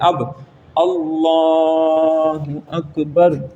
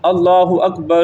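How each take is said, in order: First: The L sound in Allah is held long. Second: The R sound in Akbar is held long. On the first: The speaker calls it right. "लफ्ज़ अल्लाह का जो लाम है उसको आपने" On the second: The speaker calls it wrong. "राह को बढ़ा देते हैं"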